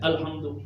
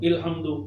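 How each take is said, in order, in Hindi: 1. शब्द की शुरुआत a स्वर से होती है। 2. शब्द की शुरुआत i स्वर से होती है। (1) "आप कहते हैं अल्हम्दु" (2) "मैं कहता हूं इल्हम्दु"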